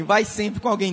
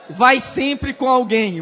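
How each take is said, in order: First: Said in the usual way. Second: Slow, much louder, drawn-out exhortation; loud emphatic warning. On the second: Real, not acted. Preacher warns the congregation loudly and slowly to never go alone. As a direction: hammer each word home slowly. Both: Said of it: "Olha, irmão".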